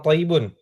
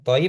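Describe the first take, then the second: First: The word ends with the final -un ending. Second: The word ends without the final -un ending. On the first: The final case vowel is fully read out. The speaker calls it right. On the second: The final case vowel is dropped to shorten speech. The speaker calls it wrong.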